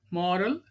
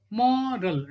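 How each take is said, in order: First: Said in the usual way. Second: "Moral" stretched as mo-ral; split into syllables. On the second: Shown as a demonstration. Teacher showing two syllables, "Moral" said beat by beat. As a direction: say "Moral" in two long beats.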